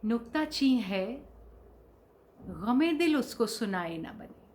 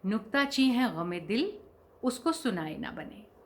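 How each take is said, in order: First: The pause comes after 'nuktacheen hai'. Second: The pause comes after 'gham-e-dil'. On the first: The beloved is the critic. The speaker calls it right. "एक comma सही जगह लगाने से उसकी उसका पूरा मतलब ही बदल गया" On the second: The heart's grief is the critic. The speaker calls it wrong. "अक्सर लोग उसे क्या पढ़ते हैं"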